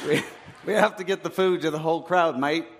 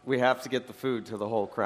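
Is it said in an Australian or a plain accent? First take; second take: Australian; plain. First: It is said in an Australian accent. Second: It is said in his ordinary accent.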